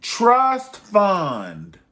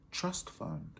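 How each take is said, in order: First: Louder, higher call of trust fund. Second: Much softer echo of trust fund. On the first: Vlogger leading the class chant, loud call. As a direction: belt it out for the class. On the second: Vlogger echoing the class chant, soft murmur. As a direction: let it fade to a murmur. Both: Acted. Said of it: "Say it with me".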